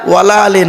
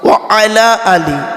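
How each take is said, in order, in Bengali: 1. Wa এবং ala একসাথে মিলিয়ে wala বলা হয়। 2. Wa এবং ala আলাদা শব্দ হিসেবে বলা হয়।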